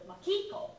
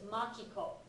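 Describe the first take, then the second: First: The name is said with an American accent. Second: The name is said with a Japanese accent. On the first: The speaker calls it wrong. "how she imitated the way Americans butchered her name" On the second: The speaker calls it right. "because it was Makiko"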